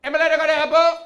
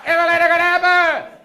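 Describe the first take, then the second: First: Put-on high, loud garbled accent; hostile stranger. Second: High, loud, fast garbled yell; hostile stranger again. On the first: Hostile man asking comic for directions, high loud mangled shout. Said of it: "He goes". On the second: Retold or imitated. Repeating his question to confused comic, faster high loud yell. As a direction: shout it faster and angrier. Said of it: "I said, "What?".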